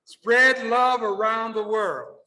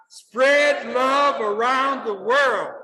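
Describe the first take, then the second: First: Slow, raised-pitch call to the room; call for repetition. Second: Loud, high, drawn-out rallying call; like you mean it. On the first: Speaker leading audience to repeat after him, slow call. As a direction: lead the crowd in a drawn-out line. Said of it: "repeat after me". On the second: Speaker urging audience to repeat wholeheartedly, emphatic rallying call. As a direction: stretch every word out with full conviction. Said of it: "Say it like you mean it now". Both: Shown as a demonstration.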